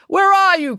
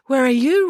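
First: Loud, high searching call. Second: Echoing call. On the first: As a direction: call through the woods. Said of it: "called Narcissus". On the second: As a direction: echo with less force. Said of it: "repeated Echo". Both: A narrator's reading.

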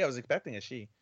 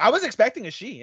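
First: Quiet, earnest and sincere. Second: Fast, high and excited. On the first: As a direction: say it softly, in all sincerity. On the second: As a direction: blurt it out eagerly. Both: Shown as a demonstration. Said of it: "In all sincerity".

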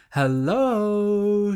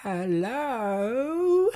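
First: Higher, bright sung greeting from the mother; cheerful mother. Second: High, soft, sing-song hello; sweet witch voice. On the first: Mother singing out a greeting as she opens the door. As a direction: open the door with a cheerful hello. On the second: Witch at the door calling sweetly, high and soft. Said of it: "came the sweet voice of the witch". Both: A narrator's reading.

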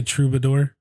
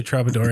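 First: "troubadour" with an oo in the first syllable; corrected pronunciation. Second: "troubadour" with an ah in the first syllable; preferred pronunciation. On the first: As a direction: say "troubadour" as TROO-buh-dor. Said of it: "it does say troubadour". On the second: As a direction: say "troubadour" as TRAH-buh-dor. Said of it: "I'm gonna say troubadour anyway". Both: Shown as a demonstration.

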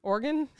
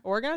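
First: "Oregon" ending in a reduced "gun"; trying another pronunciation. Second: "Oregon" ending in a full "gon"; trying a pronunciation. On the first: Host copying co-host's way of saying Oregon, reduced last syllable. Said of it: "How do you say it?". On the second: Host checking how to say Oregon, last syllable like "gone". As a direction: say "Oregon" as OR-gahn, questioning. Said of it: "Is that how you say it?". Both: Shown as a demonstration.

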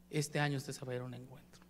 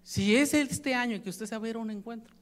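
First: "este año" said much lower and much softer; softer, lower repeat. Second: Said in the usual way. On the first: Shown as a demonstration. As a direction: drop the repeat to a low, soft near-murmur. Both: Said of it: "repeats the promise, second time softer".

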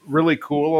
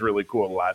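First: Said in the usual way. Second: Put-on lower, softer Russian-accented "really cool"; Yelena's deadpan Russian-accented "really cool"; Yelena's flat Russian accent. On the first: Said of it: "Todd says". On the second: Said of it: "Elena says".

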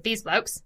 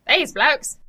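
First: Just a tiny touch of an Australian accent; slight Australian accent. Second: Louder, higher, bad Australian accent; exaggerated Australian accent. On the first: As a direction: slip lightly into Australian on these two words. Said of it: "my little bit of accent". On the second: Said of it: "That's worse. That's way worse". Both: Shown as a demonstration.

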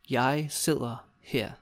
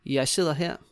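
First: Slow, separated words. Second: Said in the usual way. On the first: Shown as a demonstration. Teacher modelling the customer's reply, word by word. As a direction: leave space between the words.

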